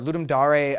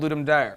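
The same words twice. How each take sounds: First: The name is pronounced in a fancy, pretentious way. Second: The name is pronounced in a plain, everyday way.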